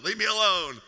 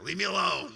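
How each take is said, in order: First: Exasperated, louder second plea. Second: Said in the usual way. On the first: Retold or imitated. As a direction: leave me alone pushed louder. Lying exhausted on gym floor.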